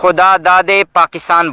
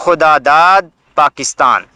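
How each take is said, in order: First: An 'e' vowel links the two words. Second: The final 'd' closes with no linking vowel. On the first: The speaker calls it wrong. "TV पर एक साहिब ... बोल रहे थे" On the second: The speaker calls it right. "इसे बोलना चाहिए"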